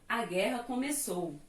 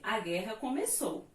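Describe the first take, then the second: First: The voice falls firmly like an exclamation. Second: The voice rises at the end like a question.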